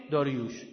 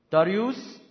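First: "داریوش" ending in sh; Hebrew pronunciation. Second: "داریوس" ending in a Greek s; Greek pronunciation. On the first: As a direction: say "داریوش" the Hebrew way, lower, with final sh. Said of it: "بعدش هم عبریش کنید". (تلفظ عبری «داریوش» با ش پایانی) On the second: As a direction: say "داریوس" the Greek way, Dariyus with final s. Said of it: "اول یونانیش کنید". (تلفظ یونانی «داریوس» با س پایانی) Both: Shown as a demonstration.

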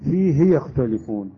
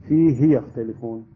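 First: فيه with a drawn out long hi; wrong reading. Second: فيه with a short hi, no lengthening; correct reading. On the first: Teacher demonstrating the wrong lengthening of فيه. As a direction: stretch the ha in فيه into fihii. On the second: Teacher demonstrating the correct short ha in فيه. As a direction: keep the ha in فيه short, fihi. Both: Shown as a demonstration. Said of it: "لا نقرأ فيه يختلفون".

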